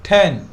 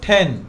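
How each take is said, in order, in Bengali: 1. t টি শ্বাসযুক্ত ও আকাঙ্ক্ষিত। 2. t টি শ্বাসযুক্ত ও আকাঙ্ক্ষিত।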